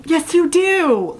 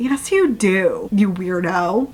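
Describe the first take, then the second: First: High, slow, sing-out insistence; emphatic teasing retort. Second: Slow, drawn-out teasing retort. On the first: Reader insisting to a fictional heroine, high teasing emphasis. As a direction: push YOU DO way up and stretch it. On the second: Reader scolding a fictional heroine, teasingly. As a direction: draw out YOU DO in mild mockery. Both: Real, not acted.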